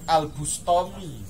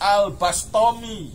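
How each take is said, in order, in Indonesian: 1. Vokal pertama dari nama itu adalah 'u'. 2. Vokal pertama dari nama itu adalah 'a'. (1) "umumnya orang Al-Bustami" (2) "yang tepatnya"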